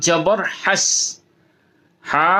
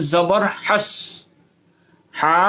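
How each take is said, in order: Both takes have the same delivery.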